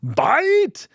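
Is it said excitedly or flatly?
excitedly. It is said excitedly, like an exclamation.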